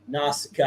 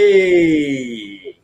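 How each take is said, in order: First: It is said in his own voice. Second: It is said in a Fonzie impression.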